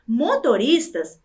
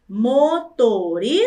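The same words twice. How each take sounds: First: Said in the usual way. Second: "motoristas" slowly broken into four syllables. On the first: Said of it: "é formado por quatro sílabas". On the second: Shown as a demonstration. Teacher showing pupils four syllables, slowly split. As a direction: separate every syllable of "motoristas".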